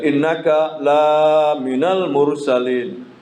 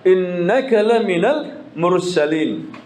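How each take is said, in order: First: The vowel in la is drawn out long. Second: The vowel in la is kept short. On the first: You are not one of the messengers. The speaker calls it wrong. "panjang keliru" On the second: You are truly one of the messengers. The speaker calls it right. "bukan panjang"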